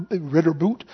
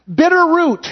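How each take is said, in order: First: "ritter boot", first sounds of bitter root swapped; mispronounced. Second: "bitter root", higher and firmly corrected; corrected pronunciation. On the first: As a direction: fumble "ritter boot" low and softer. Slip of the tongue, then corrected. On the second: Corrects the preceding slip. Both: Real, not acted.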